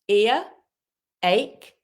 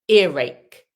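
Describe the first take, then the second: First: The words are separate with no r sound. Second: The words join with a linking r sound. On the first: "When you say ear, it doesn't have a r sound" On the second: "when we say earache, the r appears"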